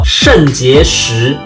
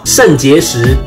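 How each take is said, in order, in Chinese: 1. 第一个音节发得非常清楚。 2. 第一个音节是随便发的。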